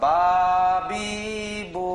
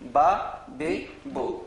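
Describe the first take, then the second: First: The vowels are drawn out long. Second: The vowels are short and not drawn out. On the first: "টান হবে নাকি?" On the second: "আগে আমরা পড়েছি"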